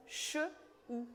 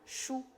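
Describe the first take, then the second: First: "Che", a pause, then "ou"; sounds separated. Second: Said in the usual way. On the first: Shown as a demonstration. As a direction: break it into "Che" and "ou". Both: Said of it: "Comment ça s'appelle".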